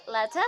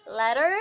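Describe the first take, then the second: First: RP "letter" ending in "-tuh", no R; RP accent. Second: American "letter" with the final R sounded; American accent. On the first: Teacher contrasting examples for learners, RP accent. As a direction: say letter in posh British RP. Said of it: "in R P it's". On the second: Teacher contrasting examples for learners, American accent. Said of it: "in American, then in R P". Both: Shown as a demonstration.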